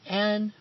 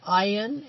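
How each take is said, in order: First: The name is said like 'Anne'. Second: The name is said with an 'ayn' vowel. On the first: The speaker calls it wrong. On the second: The speaker calls it right.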